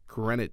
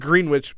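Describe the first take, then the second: First: The name is said the way locals say it. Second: The name is said the way it is spelled. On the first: The speaker calls it right. "but it's pronounced Greenwich" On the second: The speaker calls it wrong. "It's spelled Greenwich"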